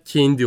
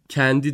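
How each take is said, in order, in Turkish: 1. E ünlüsü fazla kapalı telaffuz ediliyor. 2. E ünlüsü tam açık telaffuz ediliyor. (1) "E'yi kapatmaya çalıştığımda da bu sefer çok kapatıyordum" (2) "E açıktı"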